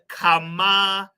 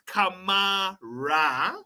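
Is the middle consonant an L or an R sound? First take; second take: L; R. First: The middle consonant is an L sound. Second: The middle consonant is an R sound. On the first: The speaker calls it right. "say it with me, people" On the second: The speaker calls it wrong. "not Kamara"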